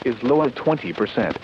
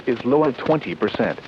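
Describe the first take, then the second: No difference in how they are said.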